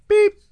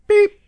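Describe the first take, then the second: Both takes have the same delivery.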